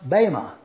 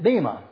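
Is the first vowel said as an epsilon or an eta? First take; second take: eta; epsilon. First: The first vowel is said like an eta. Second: The first vowel is said like an epsilon. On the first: The speaker calls it right. "when you have an eta instead of an epsilon, it's pronounced bema" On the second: The speaker calls it wrong. "if you spell it B-E-M-A, you would pronounce it bema"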